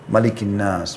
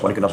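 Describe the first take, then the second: First: It is recited slowly, with a stop afterward. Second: It is recited fast, running into the next words. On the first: Each phrase is given its due. The speaker calls it right. "Tartilkan Al-Quran itu pelan-pelan" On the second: The reciter is not attending to what is read. The speaker calls it wrong. "dengan seperti orang terburu-buru"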